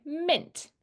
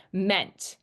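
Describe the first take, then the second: First: Mint, the usual relaxed sound for ment; natural reduced vowel. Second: Meant with a clear eh vowel; wrong full vowel. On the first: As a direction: say mint as in achievement. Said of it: "We usually say mint". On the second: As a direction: say Meant spelled-out, eh not schwa. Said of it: "We don't ever really say meant". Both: Shown as a demonstration.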